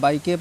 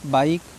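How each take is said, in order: First: A vowel sound is added after the final k. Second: The word ends on the k with no vowel. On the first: The speaker calls it wrong. "बहुत से बच्चे इसको बीके पढ़ेंगे या बाइके पढ़ेंगे" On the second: The speaker calls it right. "वर्ड के last में आया हुआ ई साइलेंट होता है"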